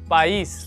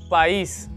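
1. 'i' ध्वनि स्ट्रेस देकर बोली जाती है। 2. 'i' ध्वनि स्ट्रेस देकर बोली जाती है।

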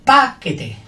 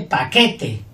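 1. El acento está en la primera sílaba. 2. El acento está en la sílaba del medio. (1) "Con la primera fuerte" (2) "Con la del medio fuerte"

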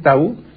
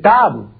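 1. La sílaba tónica es la última. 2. La sílaba tónica es la primera. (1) "en Polinesia no se dice tabú" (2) "la palabra no es aguda en Polinesia. ... en Polinesia se dice tabu"

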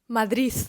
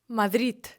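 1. Слово закінчується звуком с. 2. Слово закінчується звуком д. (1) "вимовляє слово «Мадрид» ... як «Мадріс»" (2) "вимовляють це слово як мадрід"

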